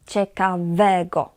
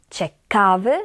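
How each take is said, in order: First: "ciekawego" stressed on "we", falling after it. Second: "Ciekawy" stressed on the middle syllable "ka", left rising. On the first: ("ciekawego" z akcentem na „we”) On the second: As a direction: lean on "ka" in "Ciekawy", voice up at the end. ("Ciekawy" z akcentem na „ka”) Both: Shown as a demonstration. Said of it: "na drugą sylabę od końca".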